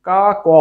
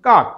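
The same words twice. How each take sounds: First: "কা ক" said as two separate syllables with a break between them; মাঝে থেমে "কা ক" দুই ভাগে ভুল উচ্চারণ; wrong split pronunciation. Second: "কাক" said as one closed syllable, the final ক stopped short with no vowel after it; শেষের ক থামিয়ে এক অক্ষরে "কাক"; correct pronunciation. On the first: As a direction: pull "কা ক" apart into two beats, like the wrong way. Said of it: "আমরা ওইভাবে কিন্তু কেউ উচ্চারণ করি না". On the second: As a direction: say "কাক" in one beat and cut off at the last ক. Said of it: "শুদ্ধ উচ্চারণ হলো". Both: Shown as a demonstration.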